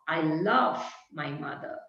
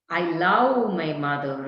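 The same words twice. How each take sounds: First: "love" with the short u vowel, a clear v; correct love. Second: "love" with an open a sound, lav; wrong vowel in love. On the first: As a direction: model "love" properly, softly. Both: Shown as a demonstration. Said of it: "is wrong".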